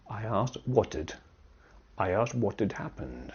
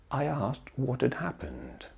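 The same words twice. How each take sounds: First: "what had" run together as "what'd", the h dropped; contracted what'd. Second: "had" said in full with its h after "what"; uncontracted had. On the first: Teacher showing how we say it, contracted "what had". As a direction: shrink "had" to a weak 'd on "what". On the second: Teacher reading out the written form, full "what had". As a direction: keep "what had" as two separate words. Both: Shown as a demonstration. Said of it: "but we say".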